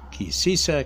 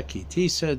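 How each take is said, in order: First: "Sisa" said with an s sound opening both syllables. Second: "Tisa" said with a crisp t opening the first syllable. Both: Shown as a demonstration. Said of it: "depending on how you pronounce it".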